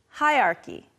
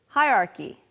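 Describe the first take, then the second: The two takes are said the same way.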